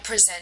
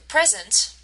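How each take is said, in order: First: The stress is on the second syllable. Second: The stress is on the first syllable. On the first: It is the verb. "if we shift the emphasis onto the second syllable" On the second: It is the noun. "the stress is on the first uh, syllable"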